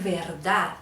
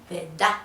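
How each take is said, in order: First: Said in the usual way. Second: "verdad" with R dropped and D doubled, no final D; costeño doubled D. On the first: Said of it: "no dicen verdad". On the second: Shown as a demonstration. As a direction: say verdad as ved-dá. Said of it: "ponen otra D y".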